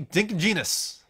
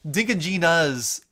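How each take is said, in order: First: It is said quickly with sounds run together. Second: It is said carefully with each sound clear. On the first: "I'm just kind of like saying it quickly, so it just flows out that way" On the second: "like it just kind of doesn't flow as well"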